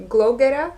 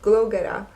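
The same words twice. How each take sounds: First: "Glow Getter?" asked with a rising, unsure tune; questioning tune. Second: "Glow Getter." settled with a falling, sure tune; confirming tune. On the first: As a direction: check the name "Glow Getter?", rising at the end. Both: Real, not acted. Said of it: "uh, Gold".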